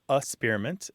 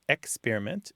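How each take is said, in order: First: The K sound is dropped from the first syllable. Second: The K sound is kept in the first syllable.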